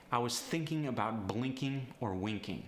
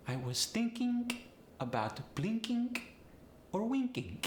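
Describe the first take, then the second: First: Said in the usual way. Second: Polish accent, -ing ending in a hard K; high, phrase-by-phrase Polish accent demo. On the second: Shown as a demonstration. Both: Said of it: "I N G goes to the I N K".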